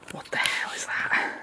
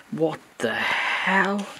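First: What the hell whispered slowly; shocked whisper. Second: What the hell stretched out very slowly; drawn-out disbelief. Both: Real, not acted. Seeing a creepy doll.

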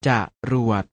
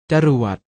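First: จะรวด split into จะ and รวด; short จะ, clear gap, then รวด; syllable by syllable. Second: Said in the usual way. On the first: Shown as a demonstration. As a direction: sound out จะรวด in two beats. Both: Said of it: "อ่านว่า".

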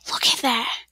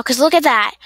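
First: Said in the usual way. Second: Louder, exasperated; annoyed. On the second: Real, not acted. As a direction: point it out with irritation. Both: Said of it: "it gets annoying".

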